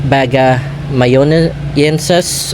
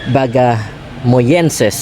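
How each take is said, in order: First: The word has six syllables with an extra middle syllable. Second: The word has five syllables without an extra syllable. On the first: The speaker calls it wrong. "if I have uh, pronounced that uh, incorrectly" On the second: The speaker calls it right. "that that's the correct pronunciation of that species"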